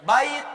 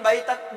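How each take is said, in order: First: The word ends on a bare t sound. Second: The word ends with an added -an sound. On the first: The speaker calls it right. "matikan aja ujungnya, nggak usah pakai an in un" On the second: The speaker calls it wrong.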